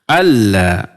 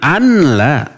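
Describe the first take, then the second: First: The n merges fully into the l sound. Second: The n is pronounced separately before the l. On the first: The speaker calls it right. "Nunnya hilang" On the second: The speaker calls it wrong. "Jangan anla"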